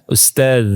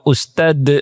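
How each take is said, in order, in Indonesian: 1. Kata ini diakhiri bunyi seperti th yang lembut. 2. Kata ini diakhiri bunyi d biasa. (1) "Padahal zal" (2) "Dalnya dikol-kolahkan"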